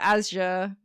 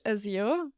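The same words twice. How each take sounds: First: The word is said without a y sound. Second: The word is said with a y sound. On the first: This is a version heard from others. "but I've heard it Azure" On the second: This is the speaker's own variety of English. "in my var- variation of English, Azure, like a y"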